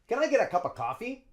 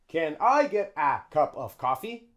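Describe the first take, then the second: First: 'A' and 'of' become schwa and link together. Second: Each word is said fully, without reduction. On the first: The speaker calls it right. "We use schwa for of, and we also use schwa for ah" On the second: The speaker calls it wrong. "No. We don't say that"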